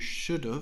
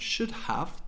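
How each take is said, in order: First: The word 'have' is reduced to 'of'. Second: The word 'have' is said in full. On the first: "to should have" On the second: "from should have"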